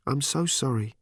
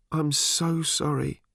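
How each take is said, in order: First: Small, contrite voice; subdued apology. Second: High, slow, tearful voice; sobbing apology. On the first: Daughter quietly apologising after the quarrel. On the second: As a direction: draw the apology out as if crying. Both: A narrator's reading.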